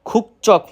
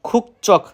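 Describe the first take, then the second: No difference in how they are said.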